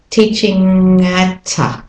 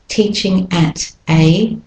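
First: The words run together smoothly. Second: The words are said separately.

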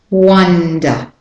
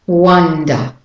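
First: The first vowel is a short open up sound. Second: The same.

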